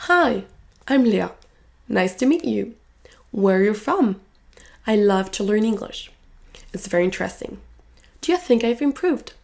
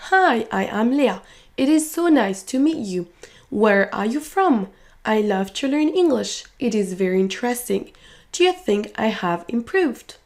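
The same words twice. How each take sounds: First: "nice", "meet", "from", "love", "English" stand out, small words reduced; key words stressed. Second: Each word given equal weight, no reductions; every word distinct. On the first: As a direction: stress content words, swallow "to", "are", "you". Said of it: "les mots en jaune vont ressortir plus que les autres". (mots importants accentués, les autres réduits) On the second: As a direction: pronounce every word fully and separately, "I am", "It is". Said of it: "en prononçant distinctement chaque mot". (chaque mot prononcé distinctement, sans réduction)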